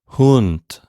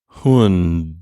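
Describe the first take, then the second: First: The final consonant is a voiceless T sound. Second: The final consonant is a voiced D sound. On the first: "without vibrating my vocal cords at the end" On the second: "when I say that D, my vocal cords are vibrating"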